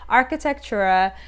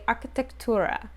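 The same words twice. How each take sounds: First: It is said with a clunky English accent. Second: It is said with a Spanish accent. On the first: "just say it with a clunky English accent" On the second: "if you were saying it with like more of a Spanish accent"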